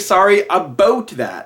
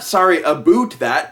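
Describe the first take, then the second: First: It is said in a real Canadian accent. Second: It is an exaggerated movie-style Canadian accent.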